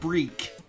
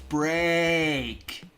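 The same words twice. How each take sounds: First: The vowel sounds like a long 'ee'. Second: The vowel sounds like a long 'ay'. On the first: The speaker calls it wrong. "It's not break" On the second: The speaker calls it right. "It's break"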